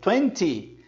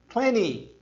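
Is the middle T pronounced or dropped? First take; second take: pronounced; dropped. First: The middle T is clearly pronounced. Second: The middle T sound is dropped. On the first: "os britânicos dizem twenty" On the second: "Eles matam esse som do T e dizem twenty"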